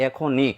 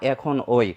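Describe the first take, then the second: First: "এখনই" said ekhon-i, ending in pure i; correct ekhon-i. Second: "এখন ওই" with a wrong oi glide at the end; mistaken ekhon-oi. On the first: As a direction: end "এখনই" on a clean i, no oi glide. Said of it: "আমরা উচ্চারণ করতে পারবো". ("এখনই"-কে এখোন্-ই বলে উচ্চারণ) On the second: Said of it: "কখনোই উচ্চারণ করতে পারবো না". ("এখন ওই"-এর শেষে ভুল ওই উচ্চারণ) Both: Shown as a demonstration.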